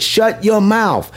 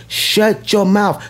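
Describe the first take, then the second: First: Said in the usual way. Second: Slow, deliberate Shut your mouth, each word weighted; slow emphatic repeat. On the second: Shown as a demonstration. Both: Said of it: "Yes, I said it".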